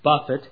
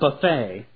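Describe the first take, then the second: First: It ends in a t sound, stressed first. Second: It ends in an ay sound, stressed last. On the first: It means to strike with the fists. The speaker calls it right. "I like that word buffet" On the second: It means a spread of food. The speaker calls it wrong. "not buffet"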